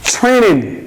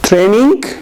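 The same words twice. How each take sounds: First: The tr sounds close to a ch sound. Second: The t and r sound separate and plain. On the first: The speaker calls it right. "It's training" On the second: The speaker calls it wrong.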